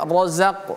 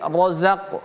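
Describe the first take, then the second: First: The r sound is heavy and thick. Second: The r sound is heavy and thick.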